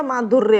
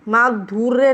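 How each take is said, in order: First: माधुर्य with a short u: maa-dhur-ya; correct pronunciation. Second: माधुर्य with a long oo: maa-dhoor-ya; wrong pronunciation. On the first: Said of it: "माधुर्य होता है". (माधुर्य में "धु" छोटा बोलें) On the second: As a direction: stretch the u in माधुर्य. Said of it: "माधुर्य नहीं होता". (माधुर्य में "धू" लंबा बोलें) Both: Shown as a demonstration.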